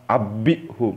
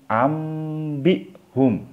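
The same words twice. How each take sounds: First: Abihum with the m left out; wrong reading. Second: Ambihum slow and higher, with a clear m and closed lips; correct recitation. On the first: Teacher shows students the mistaken abihum. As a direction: skip the m and say abihum. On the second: Teacher models the correct Ambihum with closed lips. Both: Shown as a demonstration. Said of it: "bukan abihum".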